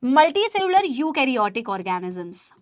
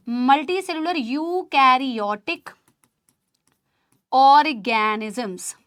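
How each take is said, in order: First: Said in the usual way. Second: "multicellular eukaryotic organisms" drawn out slowly, word by word; slow dictation. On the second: Shown as a demonstration. Teacher dictates the definition for students to write, slow. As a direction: spell it out slowly for note-taking. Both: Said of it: "बताओ।".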